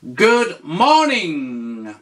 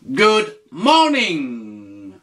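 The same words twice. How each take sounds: First: Slow, clear teacher model; slow model phrase. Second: Slow repeat for the learner. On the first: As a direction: say it slowly for the learner. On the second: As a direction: repeat it slowly and clearly. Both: Shown as a demonstration. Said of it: "tu lui dis".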